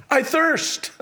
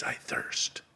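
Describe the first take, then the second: First: Lifted high and strained; a thirsty cry lifted high; raised, pained cry. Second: Breathy, hushed whisper; a dry, faint whisper of thirst. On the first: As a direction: cry it out, pitched up. Preacher acts Christ's words. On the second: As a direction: whisper it, parched and spent. The same words repeated in a whisper. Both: Acted.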